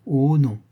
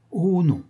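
First: Lightly mocking echo of his "oh non"; mimicking. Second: High, drawn-out "oh non"; emphatic denial. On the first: Marquise echoing her young lover to tease him, mimicking. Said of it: "répéta-t-elle en me contrefaisant". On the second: Young lover assuring his mistress he won't forget, emphatic denial. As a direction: protest with a high, falling cry. Hero's answer, mimicked right after. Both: A narrator's reading.

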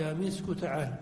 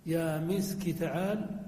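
First: مسك ending on a u vowel: misku; kaf with damma. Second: مسك ending on an i vowel: miski; kaf with kasra. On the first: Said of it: "وعلى الأخرى". (نطق مسك بضم الكاف: يا مسكُ) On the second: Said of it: "على اللغة الكثيرة". (نطق مسك بكسر الكاف: يا مسكِ) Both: Shown as a demonstration.

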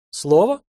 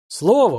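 First: Слово? asked with a quick rising tune; questioning rise. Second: Слово said with a firm falling tune. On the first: Old man asks for word. (Слово? с вопросительной интонацией) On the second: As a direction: answer Слово firmly, falling at the end. Young man confirms his word. (Слово твёрдо, с нисходящей интонацией) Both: A narrator's reading.

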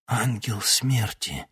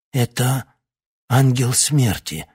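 First: Slow hoarse rasp, lightly voiced. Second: Higher, slow hoarse cry. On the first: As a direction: rasp out the words slowly. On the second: Acted. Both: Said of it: "Старик прохрипел".

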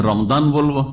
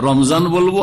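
First: "রমদান" with a d in the middle; d sound in "রমদান"; Arabic d. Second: "রমজান" with a z in the middle; z sound in "রমজান"; Bangla z. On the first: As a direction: say "রমদান" with d in place of z. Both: Shown as a demonstration. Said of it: "কোন দিকে নিয়ে যাব".

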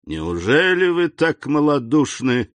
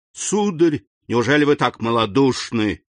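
First: С презрением, выше; брось с презрением; contemptuous exclamation. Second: С нарастающим жаром, «сударь» выше; разгорячись сильнее; growing heat. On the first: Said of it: "воскликнул с презрением Вильфор". (Вильфор презрительно восклицает) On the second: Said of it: "с возрастающим жаром". (Вильфор с жаром повторяет упрёк) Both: A narrator's reading.

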